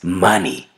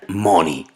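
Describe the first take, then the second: First: The first vowel sounds like an a. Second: The first vowel sounds like an o. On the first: The speaker calls it right. "Lo correcto es money" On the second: The speaker calls it wrong. "la pronuncian money"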